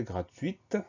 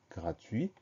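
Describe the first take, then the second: First: « gratuite » avec un T net à la fin; bien faire entendre le T final de « gratuite »; T final prononcé. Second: « gratuit » fini sur le son « ui », sans T; T final muet. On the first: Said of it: "on va entendre le T final". (« gratuite », finale « uite ») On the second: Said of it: "on a une lettre muette à la fin". (« gratuit », finale « ui » posée doucement) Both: Shown as a demonstration.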